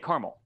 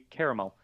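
First: It is said in a regional dialect pronunciation. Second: It is said in the standard pronunciation. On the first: The speaker calls it wrong. "I say caramel... that's just how we say caramel" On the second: The speaker calls it right. "but it should be caramel"

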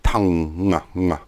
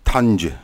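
First: No G sound is heard at the end. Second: A hard G sound is heard at the end. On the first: The speaker calls it right. "we wouldn't pronounce the G" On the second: The speaker calls it wrong. "We don't say tongue"

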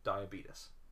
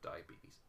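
First: The word has a jokey, nonstandard pronunciation. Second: The word has its ordinary, standard pronunciation. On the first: "I say diabetes because that was the meme that got circulated" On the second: "I said it right that time"

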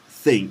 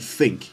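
First: It begins with a th sound. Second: It begins with an f sound. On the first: "they don't say think" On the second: "they say think"

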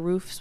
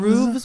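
First: The word ends with an f sound. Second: The word ends with a v sound. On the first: "roofs with an F" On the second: "Roofs with a V?"

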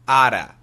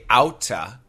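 First: The middle consonant is a soft d sound. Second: The middle consonant is a crisp t sound. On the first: The speaker calls it right. "We say ada" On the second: The speaker calls it wrong. "But we usually do not say outa"

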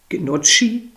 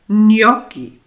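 First: The middle consonant sounds like a soft 'tch'. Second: The middle consonant sounds like a hard 'k'. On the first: The speaker calls it wrong. "es heißt nicht Gnocchi" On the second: The speaker calls it right. "Weil das H das C erhärtet"

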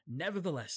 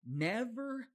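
First: The word is rushed through quickly. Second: The word is said slowly and deliberately.

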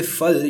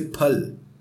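First: The word begins with an f sound. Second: The word begins with an aspirated p sound. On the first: The speaker calls it wrong. "because you don't say phal" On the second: The speaker calls it right. "you say phal"

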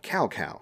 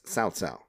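First: The name is said in an anglicized way. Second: The name is said the Chinese way. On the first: This is how the older games said the name. The speaker calls it wrong. "That's actually a mispronunciation of his Chinese name" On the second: This is how the later games said the name. The speaker calls it right. "It's Cao Cao"

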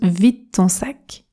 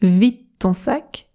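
First: The d in 'vide' is nearly dropped. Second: The same.

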